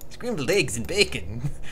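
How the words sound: It is said in a jokey Irish accent.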